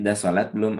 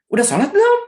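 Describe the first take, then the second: First: The voice is a little louder, still gentle. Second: The voice is very loud and harsh. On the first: The speaker is reminding a bit more firmly. "nah naik sedikit" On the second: The speaker is scolding right away. "Ini belum apa-apa udah sembilan atau volume"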